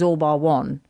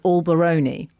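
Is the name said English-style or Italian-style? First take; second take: English; Italian. First: The name is said as three plain English words. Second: The name is run together like an Italian word. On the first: "which is All Bar One" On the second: "he refers to as All Baroni"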